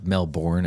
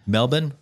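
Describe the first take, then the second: First: "Melbourne" with a full second syllable, mel-BORN; "Melbourne" with a clearly sounded "born"; spelling pronunciation of Melbourne. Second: "Melbourne" with a reduced second syllable, MEL-bun; "Melbourne" the Australian way, unstressed short ending; local pronunciation of Melbourne. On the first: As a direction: say "Melbourne" as written, rhyming the end with born. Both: Shown as a demonstration. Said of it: "as we like to say it".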